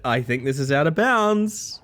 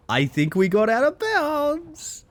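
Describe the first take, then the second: First: Said in the usual way. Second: Much higher and slow, drawn out in real delight; excited. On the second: Real, not acted. Streamer thrilled at breaking the game, high and drawn out. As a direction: draw it out high, thrilled at the glitch.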